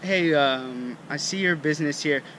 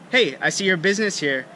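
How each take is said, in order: First: It is said slowly with a hesitant filler. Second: It is said quickly without any hesitation. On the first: The speaker calls it wrong. "It's not" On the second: The speaker calls it right. "it's very quick"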